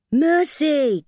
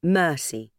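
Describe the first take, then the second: First: High, loud call of "Mercy". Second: Said in the usual way. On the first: Acted. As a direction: shout the name across. Calling the child. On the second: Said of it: "she read".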